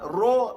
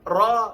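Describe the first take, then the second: First: The vowel after r is rounded like o. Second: The vowel after r is open like a. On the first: The speaker calls it wrong. "lajah Melayu" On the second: The speaker calls it right.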